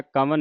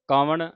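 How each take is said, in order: First: ਕਵਨ said wrongly with a dental n, "kavan"; wrong pronunciation. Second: ਕਵਣ ending on a retroflex n, "kavaṇ"; correct pronunciation. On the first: Teacher warning the sangat against the wrong "kavan". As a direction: end ਕਵਨ on a flat dental n. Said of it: "ਕਵਨ ਨਹੀਂ ਕਹਿ ਦੇਣਾ". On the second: Teacher modelling ਕਵਣ with a retroflex n for the sangat. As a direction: curl the tongue back for the n in ਕਵਣ. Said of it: "ਕਵਣ ਨਾਣੇ ਦੇ ਨਾਲ ਉਚਾਰਨ ਕਰਨਾ". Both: Shown as a demonstration.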